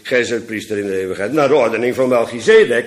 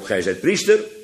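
First: The stress is on "Melchizedek". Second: The stress is on "priester".

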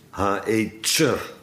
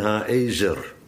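First: The z is a sharp ts sound. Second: The z is a soft, plain z sound. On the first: This is the original form. The speaker calls it right. "maar het is Ha-Ezer, met een Duitse Z" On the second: This is the usual spoken form. The speaker calls it wrong. "We zeggen Eben Ha-Ezer"

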